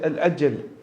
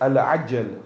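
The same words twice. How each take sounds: First: It begins with a plain vowel sound. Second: It begins with a throaty ayn sound. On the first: Asking for it to slow down. The speaker calls it wrong. "we don't want to pronounce the ayn" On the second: Asking for the reappearance to come quickly. The speaker calls it right. "the word is Al-Ajjal with a ayn"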